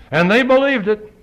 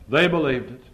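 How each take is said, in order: First: And they believed it, shouted high and loud; loud climax. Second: Said in the usual way. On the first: Shown as a demonstration. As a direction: hit believed hard at the peak.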